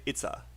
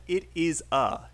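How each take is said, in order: First: "it's a" with it and is run into one syllable; native-style contraction in "it's a"; contracted "it's". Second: "it is a" with IT and IS as two separate words; every word of "it is a" spelled out distinctly; uncontracted "it is". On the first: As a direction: shorten it to "it's a", lazily linked. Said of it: "You should say "it's a". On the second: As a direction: say "it is a" in full, no contraction. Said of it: "you said "it is a". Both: Shown as a demonstration.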